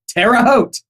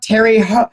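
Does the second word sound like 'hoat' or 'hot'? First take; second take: hoat; hot. First: The second word sounds like 'hoat'. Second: The second word sounds like 'hot'. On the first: The speaker calls it right. "what is cor- pronounced correctly" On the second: The speaker calls it wrong. "But not Terry Hot or anything like that"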